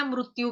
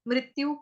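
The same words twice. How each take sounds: First: मृत्यु said as mrutyu, with a u; short u in the first syllable of मृत्यु; alternative pronunciation. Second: मृत्यु said as mrityu, with an i; short i in the first syllable of मृत्यु; Hindi pronunciation. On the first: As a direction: say मृत्यु as mrut-yu. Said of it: "मृत्यु भी बोल सकते हो". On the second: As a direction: say मृत्यु as mrit-yu. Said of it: "भी बोलते हैं". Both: Shown as a demonstration.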